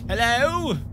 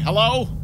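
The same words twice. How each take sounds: First: It is said with a put-on accent. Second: It is said plainly, without the accent. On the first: "Why do I always have that accent when I say that? It's like" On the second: "I can't just say, ... It just doesn't sound right"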